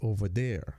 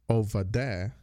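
First: It is said with a standard American accent. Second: It is said with a Caribbean Crucian accent. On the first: The speaker calls it right. "instead of over there" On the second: The speaker calls it wrong. "I used to say over there"

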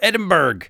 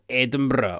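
First: It is pronounced the American way. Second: It is pronounced the local Scottish way.

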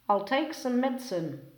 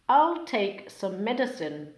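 First: Sounds between words blend and change together. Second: Each word keeps its own separate sounds.

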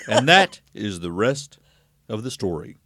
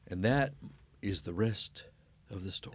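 First: It is said in an imitated broadcaster's voice. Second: It is said in the speaker's natural voice.

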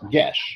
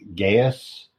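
First: The word is said as one syllable, gesh. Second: The word is said as two syllables, guy-us. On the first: The speaker calls it right. "and it's Gesh" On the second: The speaker calls it wrong. "I've been pronouncing that my entire life as Gaius"

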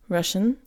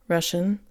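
No difference in how they are said.

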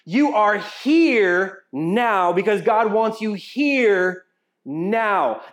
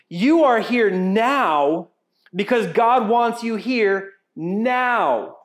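First: The stress falls on the word here. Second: The stress falls on the word now.

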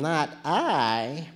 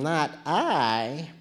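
First: It is said in a sleepy cat's voice. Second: It is said in a sleepy cat's voice.

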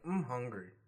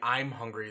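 First: The words are run together like mahungry. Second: Each word is said clearly and separately. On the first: "They're saying like" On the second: "they're like not saying "I'm hungry.""

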